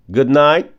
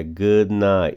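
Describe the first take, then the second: First: "Good night." without the G, H or T sounds; silent letters. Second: "good night" slowly, D and T left out; slow silent letters. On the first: Teacher showing students the silent letters. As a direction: say "Good night." dropping the D and final T. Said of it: "Não lê nem o G, nem o H, nem o T". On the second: Teacher slowing down to show the dropped D. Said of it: "E não lê o D". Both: Shown as a demonstration.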